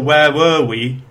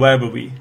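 First: The word 'were' is stressed and strong. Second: The word 'were' is weak and unstressed. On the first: The speaker calls it right. "That's because were is the main verb in that sentence" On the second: The speaker calls it wrong. "rather than"

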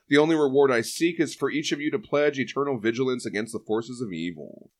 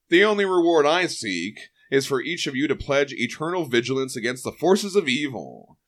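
First: It is read in a plain way. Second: It is read in a dramatic way.

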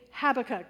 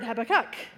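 First: The stress is on the first syllable. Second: The stress is on the third syllable. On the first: "with the first emphasis on the first syllable" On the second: "other people emphasize the third"

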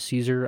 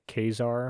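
First: The name begins with an S sound. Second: The name begins with a K sound. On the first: The speaker calls it wrong. "I believe I'm going to say Caesar" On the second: The speaker calls it right. "the correct way to pronounce it is actually like Kazar"

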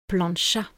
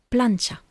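First: The stress is on the last syllable. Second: The stress is on the first syllable. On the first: The speaker calls it wrong. "en français, il tombe sur le deuxième A" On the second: The speaker calls it right. "l'accent tonique en espagnol, il tombe sur le premier A"

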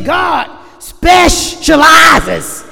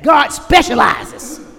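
First: It is said slowly, drawn out. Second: It is said fast.

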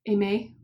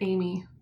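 First: The name is given a French pronunciation. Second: The name is pronounced like English Amy. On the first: "it kind of looks French" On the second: "I'm just going to pronounce it Amy to make it easier"

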